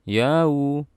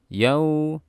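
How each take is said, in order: First: The voice swings up and down on it. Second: It is said evenly without swing or force. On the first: The speaker calls it wrong. "jangan suaranya dibaca yau" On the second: The speaker calls it right. "biasa aja"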